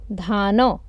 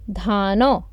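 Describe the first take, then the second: Both takes have the same delivery.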